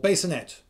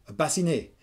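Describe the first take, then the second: First: The word is pronounced in an English way. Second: The word is pronounced in a French way.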